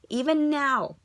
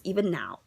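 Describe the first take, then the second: First: Rising louder each time; 1 building emphatic repeat. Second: Said in the usual way. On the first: Shown as a demonstration. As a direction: push harder on each repeat.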